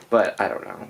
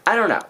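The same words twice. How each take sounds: First: Said in the usual way. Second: "I don't know" much higher and louder; exasperated repeat. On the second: Real, not acted. Fretting over which characters die, exasperated outburst. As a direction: toss up "I don't know" in frustration.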